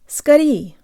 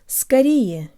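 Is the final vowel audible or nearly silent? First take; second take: nearly silent; audible. First: The final vowel is almost completely dropped. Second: It ends with a short, weak final vowel. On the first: This is the casual pronunciation. "in casual speech it practically disappears" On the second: This is the formal pronunciation. "the last yes sounds like a very short schwa sound in formal contexts"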